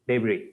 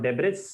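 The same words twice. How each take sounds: First: The word ends in a vowel, no s. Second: The word ends with an s sound. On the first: The speaker calls it right. "The pronunciation is debris" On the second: The speaker calls it wrong. "Not debris"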